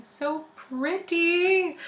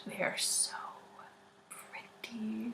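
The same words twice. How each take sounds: First: Slow, high, stretched-out so pretty; drawn-out gush. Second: Breathless whispered gush; awed whisper. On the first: Showing tattoos to listeners, slow high gush. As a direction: linger on pretty as if swooning. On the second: Showing tattoos to listeners, awed whisper. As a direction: whisper it as if in awe of them. Gushing over pretty tattoos. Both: Real, not acted.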